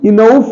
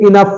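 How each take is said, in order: First: The o is pronounced as a separate vowel. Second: The o is silent, giving in-uff. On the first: The speaker calls it wrong. "इनउफ नहीं है" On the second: The speaker calls it right. "बल्कि इनफ है"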